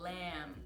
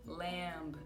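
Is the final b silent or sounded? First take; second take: silent; sounded. First: The final b is not pronounced. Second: The final b is pronounced. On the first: The speaker calls it right. "sem o B no final" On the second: The speaker calls it wrong. "a gente não fala lamb"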